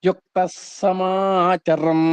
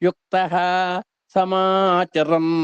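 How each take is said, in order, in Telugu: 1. మొదటి పదం s ధ్వనితో ముగుస్తుంది. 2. మొదటి పదం గాలి కలిసిన h ధ్వనితో ముగుస్తుంది.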